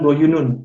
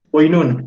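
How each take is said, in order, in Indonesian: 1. Ada tiga suku kata, vokal tengahnya dipertahankan. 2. Ada dua suku kata, vokal tengahnya dihilangkan. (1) "bukan boyunun gitu" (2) "senin boinun jadinya"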